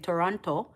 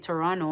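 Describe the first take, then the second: First: Each letter is sounded out, following the spelling. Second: It is said the way local people say it. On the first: This is the form the speaker used to use. "I used to say Toronto" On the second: This is the form the speaker did not use before. "I never used to say Toronto"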